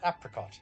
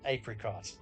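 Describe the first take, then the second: First: It uses the pronunciation heard in the US. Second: It uses the speaker's own non-American pronunciation. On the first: "some in the U S pronounce it apricot" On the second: "I pronounce it apricot"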